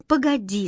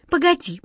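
First: Said in the usual way. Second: Hurried, high. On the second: A narrator's reading. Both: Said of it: "заторопилась Катя".

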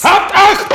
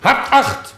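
First: Very high, full-force shout; shouted military command. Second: High, loud call to attention; military command. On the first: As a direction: bellow the order to attention. (lauthals gebrüllter Befehl) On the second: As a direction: call the men smartly to attention. Soldier calls men to attention. (zackiger militärischer Befehl) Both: Acted.

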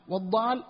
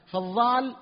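First: Said in the usual way. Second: "فالضال" with emphatic th (ظ) in place of dad; zha for dad. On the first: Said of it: "المنحرف". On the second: Shown as a demonstration. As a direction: contrast it by saying ظ in "فالضال". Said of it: "الباقي مكانه".

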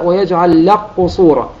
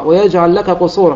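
First: "لك قصورا" with the kaf merged away, lam straight into a doubled qaf; إدغام كامل للكاف في القاف; full assimilation. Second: Said in the usual way. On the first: Shown as a demonstration. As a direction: say "لك قصورا" as "لَقّصورا", no trace of the kaf. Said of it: "بدون أثر للكاف، اللام بعدها قاف مشددة". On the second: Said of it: "فيقرأها".

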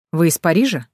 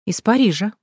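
First: Said in the usual way. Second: Self-important. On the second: A narrator's reading. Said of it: "важно ответила женщина".

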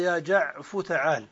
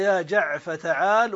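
First: يا جعف تعال with final فاء in damma, jaʕfu; جعف with u ending, non-waiting form; second dialect. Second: يا جعف تعال with final فاء in fatha, jaʕfa; جعف with open a ending, waiting form; first dialect. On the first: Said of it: "وعلى الأخرى". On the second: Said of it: "تقول على اللغة الأولى". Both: Shown as a demonstration.

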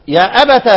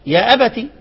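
First: يا أبت said "ya abata", ending in a; final fatha when joining. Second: يا أبتي said "ya abati", ending in i; final kasra. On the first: Teacher showing Ibn Amir's reading, "ya abata" with final a. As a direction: open the last t of يا أبت with a short a. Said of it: "في حالة الوصل بالفتح". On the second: Teacher showing Ibn Kathir's reading, "ya abati" with final i. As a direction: end يا أبتي on ti, not ta. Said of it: "وابن كثير يقرأ إيه؟". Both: Shown as a demonstration.

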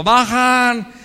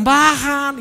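First: Loud jeering call of "Bajan"; loud schoolyard jeer; taunting shout. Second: Loud, higher jeering chant of "Bajan"; loud mocking crowd yell. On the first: Retold or imitated. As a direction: yell "Bajan" like a mocking schoolmate. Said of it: "la expresión que usábamos". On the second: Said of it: "todos gritaron".

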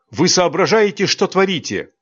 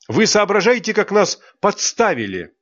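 First: High, indignant scolding; angry rebuke. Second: Higher still, stress on вы; rising indignation. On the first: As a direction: demand an answer, outraged. (возмущённый упрёк) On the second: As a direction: push harder on вы, outraged. Angry scolding of teachers. (ещё выше, ударение на «вы») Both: Acted.

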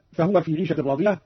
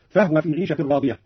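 First: Said in the usual way. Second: فهو said fahwa with the ha unvowelled; silent ha. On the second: Shown as a demonstration. Teacher demonstrates Qalun's silent ha. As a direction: keep the ha of فهو closed. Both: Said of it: "أسكن الهاء أيضًا قالون".

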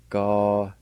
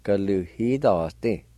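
First: "Galuhidoste" said quickly as one word; natural "Galuhidoste" with its faint H; Cherokee word at normal pace. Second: "Galuhidoste" drawn out slowly, with the faint H before the Y; slow teaching take of "Galuhidoste"; slow Cherokee pronunciation. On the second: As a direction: spell out "Galuhidoste" slowly by ear. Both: Shown as a demonstration. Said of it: "Like this".

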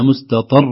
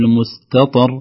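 First: مستطر with a push on "ṭar", r as if doubled; pushed final ra. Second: مستطر with an even ending and a single light tap of r; unpushed final ra. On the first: Teacher demonstrating the error to avoid, stressed ending on مستطر. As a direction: punch the last syllable of مستطر. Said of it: "لو قلنا". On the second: Teacher correcting the mistake, unstressed ending on مستطر. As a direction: end مستطر without any push. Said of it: "لا، نقول". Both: Shown as a demonstration.

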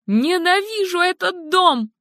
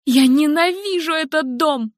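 First: Even higher, rawer repeat; escalated scream. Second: High, furious cry; screaming hatred. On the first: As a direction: push the repeat higher and harder. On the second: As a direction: hurl it out at the house. Helen screams hatred of house. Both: Acted.

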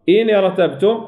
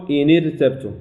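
First: إن ارتبتم with a thick, full r; correct heavy ra. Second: إن ارتبتم with a light, thinned r; wrong thin ra. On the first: Teacher showing how we recite it, إن ارتبتم with heavy ra. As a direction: velarize the ra in ارتبتم. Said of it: "ولا نقول". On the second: Teacher showing what not to say, إن ارتبتم with thin ra. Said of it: "ولا نقول إن ارتبتم". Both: Shown as a demonstration.

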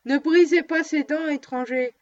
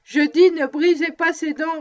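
First: A touch of solemn warning; dog owner warning the stranger, mildly solemn. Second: Louder, weightier solemn warning, stress on dis; more solemn. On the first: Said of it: "répéta ... d'un ton plus solennel encore". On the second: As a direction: lean hard on dis, insisting. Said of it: "d'un ton plus solennel encore". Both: A narrator's reading.

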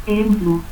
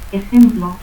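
First: Ejemplo as "e-emplu"; aspirated J. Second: Said in the usual way. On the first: Shown as a demonstration. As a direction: breathe away the J of Ejemplo, end in u. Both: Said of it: "el fonema X se aspira".

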